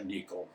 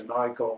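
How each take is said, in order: First: Nikon is pronounced a non-American way. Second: Nikon is pronounced the American way. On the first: "and I say Nikon" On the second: "The Americans say Nikon"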